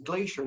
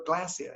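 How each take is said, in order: First: "glacier" said GLAY-sher; slow correction, "glacier" as GLAY-sher; corrected pronunciation. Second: "glacier" said GLASS-ee-uh; mistaken Aussie pronunciation. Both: Retold or imitated. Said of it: "not glacier".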